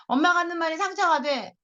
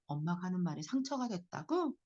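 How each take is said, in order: First: Put-on high-pitched child's complaint; aggrieved kid, pitched up; hurt child. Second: Soft repeat question in usual pitch; hushed, accepting echo; empathetic echo. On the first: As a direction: act a kid protesting to mum. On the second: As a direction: reflect it back quietly. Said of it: "이렇게 따라해주는 거예요". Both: Shown as a demonstration.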